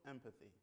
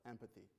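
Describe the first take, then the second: No difference in how they are said.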